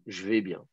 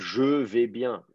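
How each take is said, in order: First: The vowel of 'je' is dropped. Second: The vowel of 'je' is fully pronounced. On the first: The speaker calls it right. "le E tombe" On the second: The speaker calls it wrong. "on dit pas"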